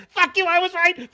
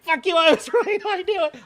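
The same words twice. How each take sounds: First: High, loud taunting gloat; a loud triumphant jeer; gloating shout. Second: High, loud gloat breaking into a laugh; giggling triumphant taunt. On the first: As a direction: rub it in their faces. Gloating that he was right. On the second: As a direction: laugh as you rub it in. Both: Retold or imitated.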